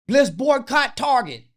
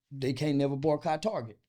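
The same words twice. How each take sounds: First: Loud, high, slow chant-like shout; mock rallying cry. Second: Said in the usual way. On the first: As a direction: imitate protesters calling out a slogan. Mimics activists' empty rallying call.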